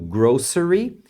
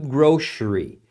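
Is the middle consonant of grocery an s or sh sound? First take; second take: s; sh. First: The middle consonant is a plain s sound. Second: The middle consonant is an sh sound. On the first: Some regions say it this way. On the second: Other regions say it this way.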